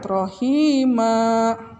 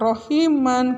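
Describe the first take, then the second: First: The word ends on an open a vowel. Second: The word ends with an n sound. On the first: The speaker calls it right. "rohima, bukan rohiman" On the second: The speaker calls it wrong. "bukan rohiman"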